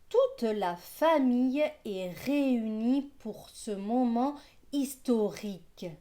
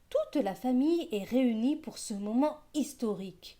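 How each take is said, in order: First: It is read slowly with careful articulation. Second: It is read at a normal speed.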